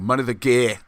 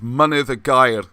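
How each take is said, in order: First: The name is said in a South Wales pronunciation. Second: The name is said in a non-South-Wales pronunciation.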